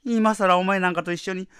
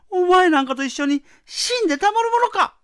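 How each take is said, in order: First: Fast, heated retort; rapid angry retort. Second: Higher, louder furious shout. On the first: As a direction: rattle it off in anger. Wife refuses, building. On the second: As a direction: scream it in defiance. Wife refuses, climax. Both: Acted.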